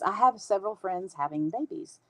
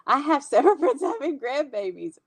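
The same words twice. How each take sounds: First: Said in the usual way. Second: "I have several friends having grandbabies", higher and laughing; emphatic correction. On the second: Real, not acted. Fifty-something correcting herself about friends' babies, emphatic amused correction.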